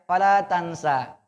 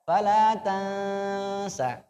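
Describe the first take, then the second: First: The final vowel is cut short. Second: The final vowel is held long. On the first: The speaker calls it wrong. "Tapi masih ada yang fala tansa" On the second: The speaker calls it right. "fala tansa ditahan"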